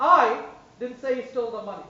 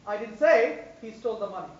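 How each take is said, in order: First: "I" stressed. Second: "say" stressed. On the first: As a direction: hit "I" first. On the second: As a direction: hit "say". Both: Shown as a demonstration. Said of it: "stress on each word".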